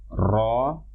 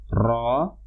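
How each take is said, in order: First: The tongue trills the r many times. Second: The tongue trills the r many times.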